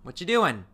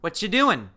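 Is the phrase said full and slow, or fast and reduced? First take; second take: reduced; reduced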